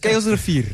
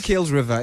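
First: The name ends with the sound 'ree-feer'. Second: The name ends like the English word 'river'. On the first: The speaker calls it right. "It's Kaelsrivier" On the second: The speaker calls it wrong. "Don't say Kaelsriver"

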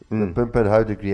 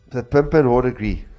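First: The word is said with no final r sound. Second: The word is said with a final r sound.

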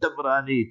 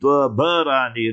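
First: It is three syllables, starting with an a vowel. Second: It is four syllables, with a vowel between b and r. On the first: The speaker calls it wrong. "not ... Tabrani" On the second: The speaker calls it right. "remember how to pronounce it"

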